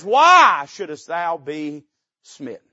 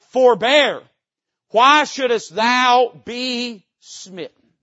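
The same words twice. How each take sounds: First: Loud, slow menacing question; loud, slow royal warning; king's threat. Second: Loud, slow threat from the king; a king's warning, loud and slow; menacing king. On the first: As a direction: drag the threat out loudly. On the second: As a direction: lean in and threaten, drawing it out. Preacher voices king's threat. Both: Retold or imitated.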